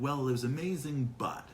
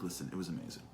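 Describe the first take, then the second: First: Higher "amazing", then a dropped "but"; hedged praise. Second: Low, soft, settled statement; unreserved praise. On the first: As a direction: praise it grudgingly, leading into a complaint. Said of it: "It's gonna be like". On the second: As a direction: say it simply and softly, no reservations. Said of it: "just turn around and be like". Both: Acted.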